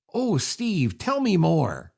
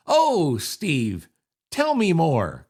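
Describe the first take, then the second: First: Dry mock interest, Oh drawn out; sarcastic. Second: Sarcastic. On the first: Host demonstrating the sarcastic contest phrase, dry mock interest. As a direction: fake fascination, tongue in cheek. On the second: Host repeating the contest phrase for listeners, hammed-up sarcasm. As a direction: lay the sarcasm on thick. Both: Shown as a demonstration. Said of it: "let's do the sarcasm".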